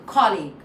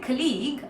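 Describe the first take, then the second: First: The stress is on the first syllable. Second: The stress is on the second syllable. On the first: The speaker calls it right. "actually co is stressed" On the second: The speaker calls it wrong. "you're stressing on league"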